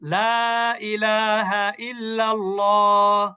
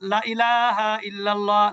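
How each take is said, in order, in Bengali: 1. প্রথম শব্দের স্বরধ্বনিটি দীর্ঘ করা হয়। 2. প্রথম শব্দের স্বরধ্বনিটি হ্রস্ব। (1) "লা যখন বলবেন" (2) "যদি লা যদি মাদ না করেন তখন কিভাবে বলবেন?"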